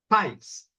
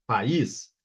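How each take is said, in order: First: PAZ said as one gliding syllable, "pais"; ditongo. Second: PAÍS in two syllables, stressed on the I; hiato. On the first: (ditongo, PAZ como "pais" numa sílaba) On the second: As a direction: split PAÍS into pa-ÍS. (hiato, PAÍS em duas sílabas) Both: Shown as a demonstration. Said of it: "veja a diferença de pronúncia".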